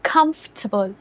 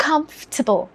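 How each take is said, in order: No difference in how they are said.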